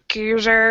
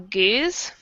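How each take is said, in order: First: It is said with a different vowel, sounding like Geuzer. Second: It is said like the English word goose. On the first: "I think the Belgians call it like Geuzer" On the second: "what we Americans normally call a goose"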